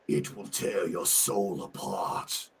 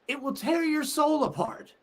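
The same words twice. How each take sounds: First: It is read in a put-on character voice. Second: It is read in the speaker's normal voice.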